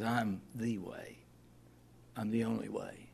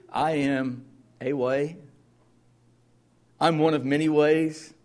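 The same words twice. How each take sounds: First: Slow, soft and firm; earnest correction. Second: Mocking a vague, easygoing Jesus; hammed-up casual misquote, higher and louder; mock wrong version. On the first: Retold or imitated. Preacher giving Jesus's true words, slow and sincere. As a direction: settle it quietly and surely. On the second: Preacher voicing the false claim he rejects, in a mock casual tone. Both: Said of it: "No, he says".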